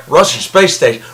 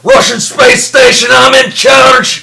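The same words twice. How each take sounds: First: Said in the usual way. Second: Loud, slow, high mock Russian accent. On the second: Insisting to his cohost the character is Russian, hammed-up Russian accent. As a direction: bellow it like a bossy cosmonaut. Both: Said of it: "we've been doing these accents".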